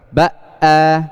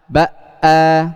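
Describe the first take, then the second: Both takes have the same delivery.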